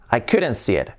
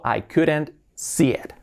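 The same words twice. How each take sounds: First: Said in the usual way. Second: Slow, spaced-out teacher's example; slow model sentence. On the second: Shown as a demonstration. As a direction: say it slowly for learners to copy. Teacher models sentence slowly, then naturally. (frase modelo, despacio)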